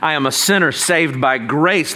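It is said in a loud, triumphant tone. Sin no longer condemns the speaker. The speaker calls it right. "The first way is as a shout of victory"

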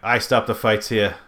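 Spoken with a thick Boston accent. "He has like a thick Boston accent"

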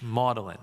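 The name is said in a British way.

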